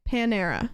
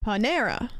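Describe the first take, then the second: First: Panera with a flat first syllable, falling; her own Panera. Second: Panera with the weight on "ne"; Panera: pa-NE-ra, push the middle syllable; stress on second syllable. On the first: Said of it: "you guys are saying Panera". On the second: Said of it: "Emphasis on the second syllable". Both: Shown as a demonstration.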